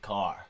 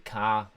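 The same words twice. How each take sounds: First: The word is said in an American accent. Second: The word is said in a Manchester accent. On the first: "Americans say car" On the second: "we say car"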